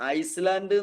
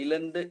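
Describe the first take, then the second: First: An s sound is heard before the l. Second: No s sound is heard before the l. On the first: "എന്ന് എഴുതും" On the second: "എന്നാണ് വായിക്കുക"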